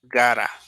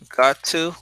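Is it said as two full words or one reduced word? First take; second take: one word; two words. First: It is squeezed into one reduced word. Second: It is said as two full separate words.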